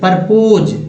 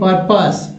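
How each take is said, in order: First: The second syllable sounds like 'pose'. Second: The second syllable sounds like 'pus'. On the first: The speaker calls it wrong. "लोग परपोज पढ़ देते" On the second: The speaker calls it right. "परपोज नहीं, पर्पस"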